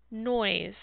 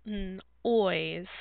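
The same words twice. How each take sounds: First: Said in the usual way. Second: "n-, ois" split after a held n; sounded out. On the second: Shown as a demonstration. Teacher showing the middle sound of a word, sounded out. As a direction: say "n-, ois" in two parts, stretching the oi. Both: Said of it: "I hear an oi sound in the middle".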